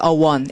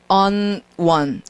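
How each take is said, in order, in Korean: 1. 관사는 one 앞에서 n 소리가 없어요. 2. 관사는 one 앞에서 n 소리로 끝나요. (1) "a one 이렇게 발음을 해야 된다" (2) "on one 이러면 너무 빡빡한 느낌을 주는 거죠"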